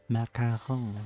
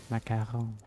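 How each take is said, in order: Both takes have the same delivery.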